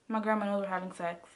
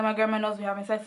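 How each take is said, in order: First: Said low and soft, hurried; hushed, hurried phone confession. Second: Rattled off very fast at normal volume; quick blurted repeat to boyfriend. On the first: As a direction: rush it out under your breath like a secret. Telling boyfriend on phone. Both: Retold or imitated.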